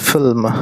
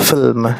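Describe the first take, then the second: The two takes are said the same way.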